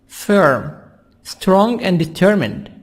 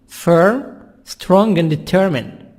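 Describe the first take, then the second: The two takes are said the same way.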